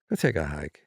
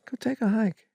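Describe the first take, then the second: First: The phrase is said in an angry, harsh tone. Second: The phrase is said in a friendly, kind tone. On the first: It tells the person to go away. The speaker calls it wrong. "Instead of" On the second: It is a kind suggestion to feel better. The speaker calls it right. "I don't want to sound mad when I say it"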